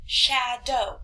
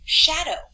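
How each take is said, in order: First: "Shadow" split into Sha and dow; syllable by syllable. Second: Said in the usual way. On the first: Shown as a demonstration. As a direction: break "Shadow" into two separate chunks. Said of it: "However many times my chin goes down". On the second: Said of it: "so I could go".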